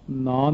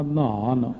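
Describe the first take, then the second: First: ਨਾਨ said as one syllable, without the h; wrong pronunciation. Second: ਨਹਾਨ with the h sounded after the n; correct pronunciation. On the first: Preacher showing listeners what not to say, ਨਾਨ with no h. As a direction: run ਨਾਨ together as "naan". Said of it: "ਨਹੀਂ ਕਹਿਣਾ". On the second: Preacher correcting the reading for listeners, ਨਹਾਨ with its h. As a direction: say ਨਹਾਨ as "nhaan", with an aspirated h. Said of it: "ਨਾਨ ਨਹੀਂ ਕਹਿਣਾ". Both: Shown as a demonstration.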